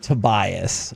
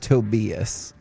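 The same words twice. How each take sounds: First: The name is pronounced the English way. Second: The name is pronounced the German way. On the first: The speaker calls it wrong. "specifically told it is not Tobias" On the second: The speaker calls it right. "It is Tobias"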